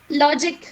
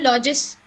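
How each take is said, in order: First: Said in the usual way. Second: "लॉजिस" with s instead of final k; wrong pronunciation. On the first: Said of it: "word बोला लॉजिक". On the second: Shown as a demonstration. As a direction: say "लॉजिस", dropping the k sound. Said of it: "आप उसको बोल रहे हो लॉजिस". ("लॉजिक" की जगह "लॉजिस" बोलना)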